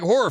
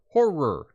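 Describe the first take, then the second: First: It is rushed into about one syllable. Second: It is said carefully with two clear syllables. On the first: It sounds like a different, rude word. The speaker calls it wrong. "You don't want to say it too quickly" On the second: It clearly means the film genre. The speaker calls it right. "Two syllables"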